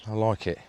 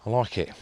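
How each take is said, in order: Both takes have the same delivery.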